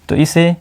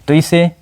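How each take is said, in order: Both takes have the same delivery.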